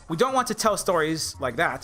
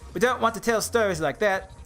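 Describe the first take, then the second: First: It is said in the speaker's normal accent. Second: It is said in an attempted New Zealand accent.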